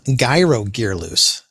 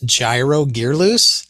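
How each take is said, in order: First: Gyro begins with a hard G sound. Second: Gyro begins with a soft J sound.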